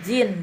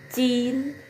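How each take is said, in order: First: The word begins with a voiced j sound. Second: The word begins with a c-like sound. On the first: The speaker calls it wrong. "bukan jin bacanya ya" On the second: The speaker calls it right. "J menjadi C"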